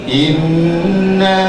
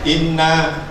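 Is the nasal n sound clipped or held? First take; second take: held; clipped. First: The doubled n is held long with nasal hum. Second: The doubled n is clipped short without nasal hum. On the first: The speaker calls it right. "Ditahan dulu" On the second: The speaker calls it wrong. "itu belum dengung"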